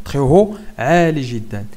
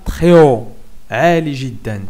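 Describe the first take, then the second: The two takes are said the same way.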